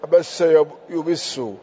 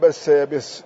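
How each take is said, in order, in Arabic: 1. يبدأ الفعل بصوت 'yu'. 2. يبدأ الفعل بصوت 'ya'. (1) "يعني من فعل الرباعي" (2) "لا من الثلاثي"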